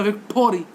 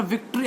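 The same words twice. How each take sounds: First: "विक्टोरी" with an extra "toh" syllable; mispronounced victory. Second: Said in the usual way. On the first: Shown as a demonstration. Teacher showing what the student said wrongly, "विक्टोरी" with "toh". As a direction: misread as "विक्टोरी", vik-toh-ree. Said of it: "ये शब्द ठीक नहीं है". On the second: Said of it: "मैंने बोला विक्ट्री".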